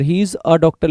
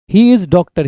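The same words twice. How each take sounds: First: Slower, with "a" stressed and rising; teacher modelling the right sentence; corrected version. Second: "He is doctor" read louder as the mistake; teacher reading out the wrong sentence; wrong version. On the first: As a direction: hit the article "a" in "he is a doctor". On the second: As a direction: flag the error with a louder read. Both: Shown as a demonstration. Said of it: "he is a doctor लिखेंगे".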